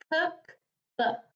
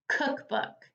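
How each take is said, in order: First: "Cookbook" as two separate beats, cook, book; split into syllables. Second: Said in the usual way. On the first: Shown as a demonstration. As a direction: clear pause in the middle of "Cookbook". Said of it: "Two syllables". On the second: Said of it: "My next word is cookbook".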